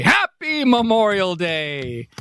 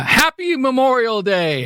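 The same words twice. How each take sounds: First: Slower sing-song Happy Memorial Day; drawn-out greeting. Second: Cheery holiday greeting. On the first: Host tries the holiday greeting a second time, drawn out. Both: Shown as a demonstration. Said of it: "do people say Happy Memorial Day".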